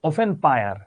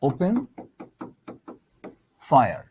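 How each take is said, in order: First: Open has an f sound, fire a p. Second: Open has a p sound, fire an f. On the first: The speaker calls it wrong. "প কে বলছে ফ, ফ কে বলছে প" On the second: The speaker calls it right. "এটাকে আমি এখানে লিখলাম ওপেন ফায়ার"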